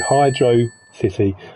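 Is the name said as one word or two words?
two words. It is said as two separate words. The speaker calls it right. "that's how you pronounce it separately"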